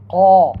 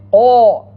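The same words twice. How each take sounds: First: "Qa" with dropped jaw and unrounded a; open Qaf. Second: "Qa" mispronounced loudly with rounded lips, like qo; rounded Qaf. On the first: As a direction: open the jaw wide on "Qa", no lip rounding. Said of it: "open your jaw". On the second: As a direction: round "Qa" into a loud qo. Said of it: "Don't pronounce it". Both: Shown as a demonstration.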